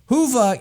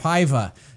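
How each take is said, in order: First: The first vowel sounds like 'who'. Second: The first vowel sounds like 'high'. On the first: The speaker calls it right. "I was kindly corrected on that" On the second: The speaker calls it wrong. "I made the mistake ... of calling it Hiva, and like a high five"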